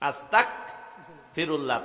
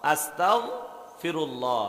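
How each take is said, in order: First: The consonant after 'asta' is hard. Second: The consonant after 'asta' is soft. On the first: Wishing to become an unbeliever. The speaker calls it wrong. "তাহলে অর্থ আল্লাহ আমি কাফের হইতাম চাই" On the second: Asking God for forgiveness. The speaker calls it right. "নরম করে আস্তাও ফিরুল্লাহ"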